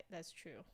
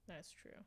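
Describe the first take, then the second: No difference in how they are said.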